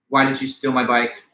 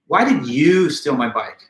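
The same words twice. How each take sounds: First: It is said flat, with no word stressed. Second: The word "you" is stressed. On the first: "in a flat monotone" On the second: "by placing accent on the word you"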